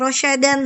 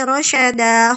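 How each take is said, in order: First: The word ends with an n sound. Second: The word ends with a long vowel. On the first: The speaker calls it wrong. "bukan rosyadan" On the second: The speaker calls it right. "tapi rosyada"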